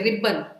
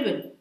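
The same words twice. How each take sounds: First: The middle b sound is pushed out forcefully. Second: The middle b sound is light, without extra force. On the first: The speaker calls it wrong. "let us not thrust on ribbon" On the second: The speaker calls it right. "say ribbon"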